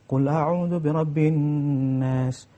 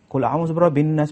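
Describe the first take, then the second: First: Each sound follows careful recitation rules. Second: The sounds ignore careful recitation rules. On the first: The speaker calls it right. "Semestinya ber, bertajwid" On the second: The speaker calls it wrong. "Tajwid tak ada langsung"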